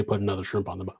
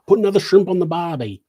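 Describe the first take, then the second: First: Said in the usual way. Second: Higher, louder, quick Australian impression; bad Australian accent. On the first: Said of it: "I've been told they don't say". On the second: Shown as a demonstration. Quoting a doubtful Aussie phrase, bad Australian accent. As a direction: put on a hammy Australian accent. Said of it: "I can't do an Australian accent".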